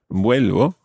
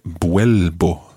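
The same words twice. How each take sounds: First: The first consonant is a soft v sound. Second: The first consonant is a hard b sound. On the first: The speaker calls it right. "quite a soft v sound" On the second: The speaker calls it wrong. "Try not to make the v sound in there too b"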